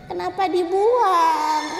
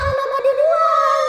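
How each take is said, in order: First: It is said softly and quietly. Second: It is said loudly and shrilly. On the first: "bertanya dengan lirih" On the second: "semakin nyaring"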